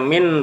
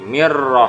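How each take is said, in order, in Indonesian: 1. Kata ini diakhiri dengan bunyi n yang jelas. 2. Bunyi n menyatu menjadi bunyi r. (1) "Hukum asalnya min rahmati" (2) "nun melebur ke huruf ro menjadi mir"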